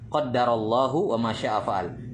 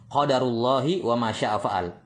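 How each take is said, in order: First: The d is doubled and Allah ends in -u. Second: The d is short and Allah ends in -i. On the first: God has decreed it. "Ditasydid dalnya, dibaca qaddarallahu" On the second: This is the decree of God. "Ini cara baca yang pertama"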